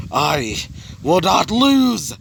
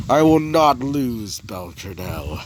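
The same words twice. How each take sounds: First: Very slow, high scream of defiance; drawn-out hammed-up battle yell; acted scream. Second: Restrained, drawn-out defiance; acted defiant vow. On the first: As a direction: scream it out, stretching the last word. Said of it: "After screaming that out". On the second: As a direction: declare it grimly, then let the name sink. Villain's vow before the scream.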